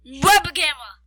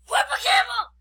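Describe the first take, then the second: First: Very loud blast at usual pitch; scream into microphone. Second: High-pitched, loud silly yell; playful scream. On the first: Kid told to scream at friend's microphone, full-volume yell. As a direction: scream it right into the mic. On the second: Kid showing off how loud they are, playful scream. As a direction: yell it high, away from the microphone. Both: Pretend. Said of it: "you have to scream at my microphone".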